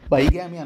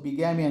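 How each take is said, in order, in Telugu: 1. మొదటి అక్షరం 'bye' లా వినిపిస్తుంది. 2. మొదటి అక్షరం 'big' లా వినిపిస్తుంది. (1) "బైగామి అనకూడదు" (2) "బిగామి అని చెప్పేసి మనకి ప్రొనౌన్సియేషన్ అయితే వస్తుంది"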